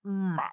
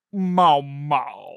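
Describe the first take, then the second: First: Soft, regretful meow; regretful creature. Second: Throaty animal meow; deep, throaty creature. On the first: Pet beast called off its captive, softly regretful. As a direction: give one reluctant, quieter meow. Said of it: "kind of regretfully, like, looks up". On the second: Pet beast looking up to answer, deep throaty voice. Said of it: "in this deep, throaty voice". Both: Acted.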